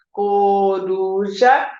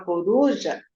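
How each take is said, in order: First: "coruja" slowly split into syllables, co-ru-ja; sounding out words. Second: Said in the usual way. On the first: Shown as a demonstration. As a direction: stretch "coruja" out syllable by syllable, like a child reading. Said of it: "se ela já faz a leitura também assim". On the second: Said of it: "depois ela fala coruja".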